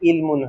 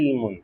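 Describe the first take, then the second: First: It begins with a plain glottal stop. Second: It begins with a throaty, constricted ain sound. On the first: "এখানে হামজা থাকলে ইলমুন হইতো" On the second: "আইন আছে ইলমুন"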